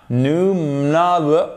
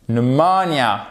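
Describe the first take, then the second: First: "Pneumonia" higher and very slow, badly garbled; drawn-out faulty "Pneumonia", MO not stressed; wrong pronunciation. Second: "Pneumonia" slowly, as "nu-MO-nia"; stress on MO. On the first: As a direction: muddle "Pneumonia" with the stress lost. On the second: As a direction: lean long on the second syllable of "Pneumonia". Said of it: "mettre l'accent tonique ici". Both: Shown as a demonstration.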